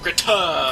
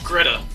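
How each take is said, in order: First: The t is crisp and exaggerated. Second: The t is soft and relaxed. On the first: The speaker calls it wrong. "not Greta" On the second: The speaker calls it right. "it's Greta"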